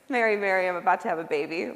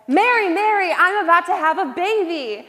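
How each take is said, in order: First: The line is said flatly with little enthusiasm. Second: The line is said with lively enthusiasm. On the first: The speaker is embarrassed after an earlier mistake. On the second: The speaker is proud and excited.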